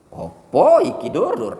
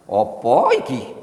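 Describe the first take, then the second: First: High, loud, slow Javanese teasing; Javanese accent, hammed up. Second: Slow, drawn-out Javanese question; Javanese accent. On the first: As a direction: tease in a big Javanese voice. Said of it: "logat dia seperti itu kan ada ekspresi". (logat Jawa dilebih-lebihkan, keras) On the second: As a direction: stretch it like a Javanese uncle. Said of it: "orang Jawa bilang". (logat Jawa yang lambat) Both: Shown as a demonstration.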